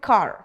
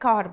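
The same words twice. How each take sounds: First: The word is said with a rolled American R. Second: The word is said in an Indian accent. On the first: "वहां पे कार, तो आर को वो रोल करते हैं" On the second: "हम लोग जैसे यहाँ पे कार बोलते हैं"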